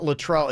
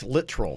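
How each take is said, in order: First: The first syllable does not sound like 'lit'. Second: The first syllable sounds like 'lit'. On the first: The speaker calls it wrong. "it's not Latrell" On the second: The speaker calls it right. "like lit trill, lit and then trill"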